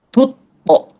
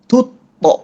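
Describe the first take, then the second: No difference in how they are said.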